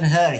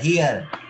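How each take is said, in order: First: The vowel sounds like the vowel in 'her'. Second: The vowel sounds like the vowel in 'here'. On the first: The speaker calls it wrong. "Bukan her" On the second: The speaker calls it right.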